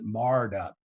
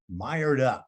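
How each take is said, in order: First: The vowel in the first word is flat, like 'marred'. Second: The vowel in the first word glides, like 'mired'.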